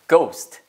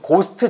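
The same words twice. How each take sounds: First: The vowel glides from o to u. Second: The vowel is a plain, short o sound. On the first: The speaker calls it right. "Ghost예요" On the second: The speaker calls it wrong. "Ghost가 아니고"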